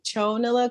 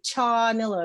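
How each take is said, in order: First: The first syllable has an 'ow' vowel. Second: The first syllable has an open 'aw' vowel. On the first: It mixes French and English. "our French sides kick in, so that's why we're like chownilla" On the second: It is the usual American way of saying it. "Americans like to say chawnilla because they say chocolate"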